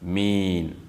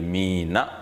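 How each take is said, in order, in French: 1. Le mot finit par n, sans voyelle. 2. Le mot finit par la voyelle a. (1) "on va dire min, en mettant donc un sukun" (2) "Au lieu de mina"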